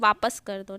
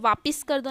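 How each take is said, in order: First: The second syllable has an 'a' vowel. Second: The second syllable has an 'i' vowel. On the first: The speaker calls it right. "वापिस ना होके वापस होता है" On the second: The speaker calls it wrong. "नहीं बोलते"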